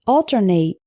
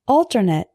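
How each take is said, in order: First: Long A in the last syllable of Alternate; verb pronunciation. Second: Reduced last syllable in Alternate; adjective pronunciation. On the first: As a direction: ALTERNATE ending in a full "nate". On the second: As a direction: ALTERNATE ending in a weak "nit". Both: Shown as a demonstration. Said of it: "say the difference with me".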